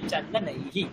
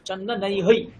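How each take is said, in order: First: The word ends with a short 'hi' syllable. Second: The word ends with an echoed 'hai' syllable. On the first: The speaker calls it right. "হিকার হয়ে যায় ওখানে" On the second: The speaker calls it wrong. "চন্দনৈ হই হওয়ার কথা ছিল, ... কিন্তু হই হয় না"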